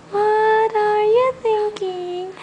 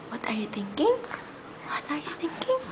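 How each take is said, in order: First: Said in the usual way. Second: Whispering. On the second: Real, not acted. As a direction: breathe the question with no voice. Same words, whispered then voiced.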